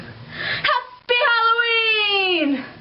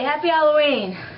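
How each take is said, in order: First: It is said with too much excitement. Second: It is said with little excitement.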